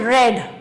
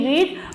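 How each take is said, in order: First: The vowel is a short e sound. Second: The vowel is a long ee sound. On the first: The past tense form. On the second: The present tense form.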